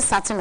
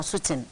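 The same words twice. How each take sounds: First: "Sutton" said SUT-un, with a short open first vowel; first pronunciation offered. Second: "Sutton" said SOO-tun, with a rounded first vowel; alternative pronunciation. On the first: Reader checks an author's name, "Sutton" as SUT-un. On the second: Reader offers another option, "Sutton" as SOO-tun. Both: Shown as a demonstration. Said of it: "Is it Sutton or Sutton?".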